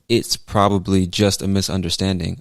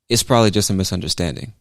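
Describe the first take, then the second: First: The T in "it's" is clearly pronounced. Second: The T in "it's" is dropped, sounding like "is". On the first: "just like I could say" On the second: "I could also say"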